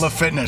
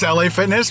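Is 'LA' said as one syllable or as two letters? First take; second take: one syllable; two letters. First: La is said as one syllable, like French. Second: LA is spelled out as two letters. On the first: This is the French-influenced reading. "my brain just says La Fitness" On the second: This is the intended name. "I know it's LA Fitness"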